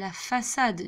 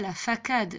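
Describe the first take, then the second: First: The middle consonant is a soft S sound. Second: The middle consonant is a hard K sound. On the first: The speaker calls it right. "mais la façade d'une maison" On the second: The speaker calls it wrong. "On ne dit pas la facade"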